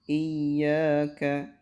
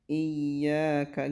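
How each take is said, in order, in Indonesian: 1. Huruf y yang dobel dibaca pendek dengan sedikit tekanan. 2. Huruf y yang dobel dibaca pendek dengan sedikit tekanan.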